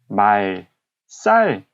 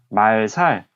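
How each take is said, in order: First: The second syllable starts with a tense s sound. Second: The second syllable starts with a plain s sound.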